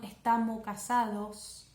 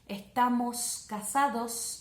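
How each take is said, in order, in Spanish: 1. Los sonidos de la S final se omiten. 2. Los sonidos de la S final se pronuncian claramente. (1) "Que suele hacer a algunas personas que tienen ese problema de dicción" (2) "las terminaciones con S"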